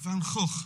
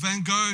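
First: The name is said with a Dutch pronunciation. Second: The name is said with an American pronunciation.

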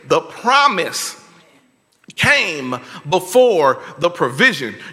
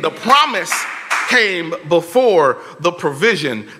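First: It is said slowly and deliberately. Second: It is said at normal speed.

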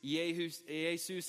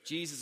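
First: The name is said with Greek pronunciation. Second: The name is said with English pronunciation. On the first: "In the Greek, it's Jesus" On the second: "is the way we say it"

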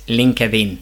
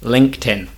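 First: The 'linked' part does not end in a t sound. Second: The 'linked' part ends in a clear t sound. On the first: The speaker calls it wrong. "they pronounce it as LinkedIn" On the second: The speaker calls it right. "We need to pronounce it like a t"

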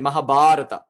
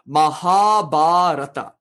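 First: Only 'ba' is stressed; 'ha' is short. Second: Both 'ha' and 'ba' are long and stressed. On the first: "we kind of drop the first guru and we just say Mahabharata" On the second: "it's pronounced Mahabharata"

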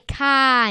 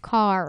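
First: It is said in a New York accent. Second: It is said in a standard accent.

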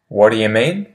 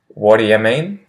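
No difference in how they are said.

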